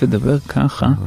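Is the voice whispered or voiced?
voiced. It is spoken with a normal, voiced tone. The speaker calls it right. "אני מעדיף לדבר ככה"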